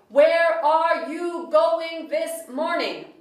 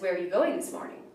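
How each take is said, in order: First: Every word is said fully and separately. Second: Unstressed words are reduced and run together.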